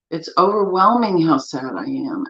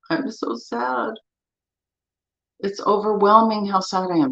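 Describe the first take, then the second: First: Said in the usual way. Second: Mock sad tapping statement. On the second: Shown as a demonstration. Tapping coach voicing a grieving client, mildly pained. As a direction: voice the sadness gently, as if aching inside. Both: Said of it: "Do this with me".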